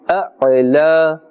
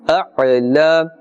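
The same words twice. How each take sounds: No difference in how they are said.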